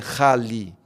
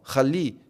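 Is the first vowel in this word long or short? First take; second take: long; short. First: The first vowel is drawn out longer. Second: The first vowel is read short and quick. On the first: The speaker calls it wrong. "não é Rali" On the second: The speaker calls it right. "você vai ler o A um pouquinho mais rápido"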